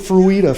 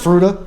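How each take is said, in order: First: The name is pronounced the Spanish way. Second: The name is pronounced the local English way. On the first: The speaker calls it wrong. "I tend to say things the Spanish pronunciation way" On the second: The speaker calls it right. "found out it's"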